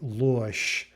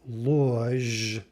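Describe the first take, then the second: First: The final consonant is a voiceless SH sound. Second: The final consonant is a voiced ZH sound. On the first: "but we say losh" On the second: "falsehood is loj"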